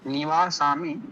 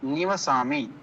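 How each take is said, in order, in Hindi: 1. दूसरे अक्षर में लंबा 'aa' स्वर है। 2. दूसरे अक्षर में छोटा 'a' स्वर है। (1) "उसको आप लोग थोड़ा सा सुधार लेंगे" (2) "वो आ जो है ... उसको हटा देंगे"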